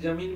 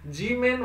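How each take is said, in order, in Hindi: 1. पहले अक्षर में छोटी 'a' ध्वनि है। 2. पहले अक्षर में लंबी 'ee' ध्वनि है। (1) "लेकिन जमीन भी आप पढ़ सकते हो" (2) "जी मैन वैसे बोला जाता है"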